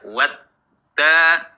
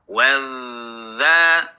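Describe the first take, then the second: First: The middle consonant is a stopped d sound. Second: The middle consonant is a flowing dh sound. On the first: The speaker calls it wrong. "tidak dibaca wadda" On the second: The speaker calls it right. "Suara yang mengalir"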